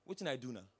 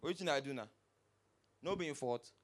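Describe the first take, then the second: First: Sulky low mumble of the careless driver; Pidgin guy. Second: Low dismissive mumble of the driver; Pidgin guy. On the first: Driver to the crowd, a low sulky mumble. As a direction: play the driver shrugging it off. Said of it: "The guy now come and say". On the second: Driver denying fault to the victim, low and dismissive. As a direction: shrug off the blame, low. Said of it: "The guy just came out like this". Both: Retold or imitated.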